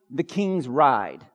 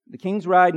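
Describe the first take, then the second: First: Slow emphatic sermon point; preacher stating a point for notes; slow, deliberate point. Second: Firm, louder repeat of the point; preacher repeating a point for notes. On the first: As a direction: say it slowly for note-takers. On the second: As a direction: repeat it with punch. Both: Real, not acted. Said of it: "give them to you, if you're taking notes".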